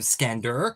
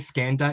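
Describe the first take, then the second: First: The final syllable ends in an 'er' sound. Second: The final syllable ends in an open 'ah' sound. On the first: "rather than E R sound" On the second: "we pronounce E R in words as an A sound"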